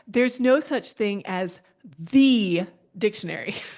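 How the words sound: It is said with a changed, pointed intonation. No single dictionary is the one authority. "If we change the intonation a little bit"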